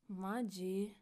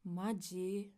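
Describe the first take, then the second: First: It is said in an annoyed, irritated tone. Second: It is said in an annoyed, irritated tone.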